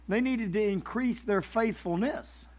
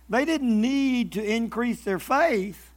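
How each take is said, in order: First: Slow, soft, weight on "faithfulness"; stress on faithfulness. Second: 把 faith 放慢拖长，句尾下降; stress on faith. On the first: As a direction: land on "faithfulness" as the key word. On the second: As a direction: slowly lean on the word "faith". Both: Shown as a demonstration. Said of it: "Now listen, there's a huge difference there".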